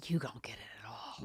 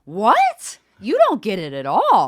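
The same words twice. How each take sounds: First: Hushed, breath-only frustration; whispered exasperation. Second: Loud, high, exasperated outburst; mad. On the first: Daughter despairing at parents outside her door, whispered exasperation. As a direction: whisper it, drained of volume. Retold plea, voice drops to whisper. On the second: Daughter losing it at her dad, loud anger. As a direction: explode at someone who won't understand. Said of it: "I was so mad". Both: Retold or imitated.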